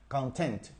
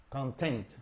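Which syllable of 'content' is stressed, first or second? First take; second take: second; second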